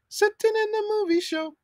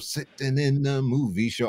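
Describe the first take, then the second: First: It is said in a normal-pitched voice. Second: It is said in a low, deep voice. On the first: The speaker calls it wrong. "don't say" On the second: The speaker calls it right. "sing it in your low register"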